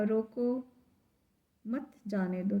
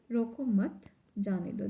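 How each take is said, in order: First: "रोको", then a long pause before "मत जाने दो"; pause after रोको. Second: "रोको मत" run together, then "जाने दो"; pause after मत. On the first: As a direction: break right after "रोको", keep "मत" with "जाने दो". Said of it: "जो यहाँ पर कॉमा लगा है". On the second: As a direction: join "रोको" to "मत", break before "जाने दो". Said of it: "this is right". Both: Shown as a demonstration.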